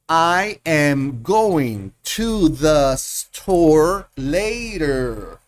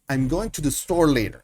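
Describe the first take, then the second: First: Each word is said separately with small pauses. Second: The words run together with weak words reduced. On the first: The speaker calls it wrong. "Estoy haciendo una lectura separada, pausada" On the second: The speaker calls it right. "Esto se lee I'm going to the store later"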